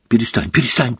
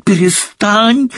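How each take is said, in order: First: Hysterical. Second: Hysterical cry. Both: Acted. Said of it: "замахала руками Гермиона в истерике".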